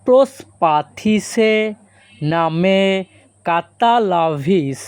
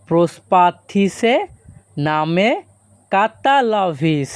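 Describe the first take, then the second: First: Slow, careful pronunciation demo; slow and clear. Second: Said in the usual way. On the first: Shown as a demonstration. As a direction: spell it out slowly for learners. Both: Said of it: "এই বাক্যের Greek ভাষা হবে".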